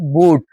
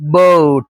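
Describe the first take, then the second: First: The vowel sounds like 'oo'. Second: The vowel sounds like 'oh'. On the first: The speaker calls it wrong. "not boot" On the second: The speaker calls it right. "The correct pronunciation is boat"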